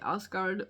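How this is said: It is pronounced with an English pronunciation. "in English you would say Asgard"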